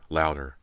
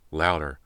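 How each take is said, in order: Both takes have the same delivery.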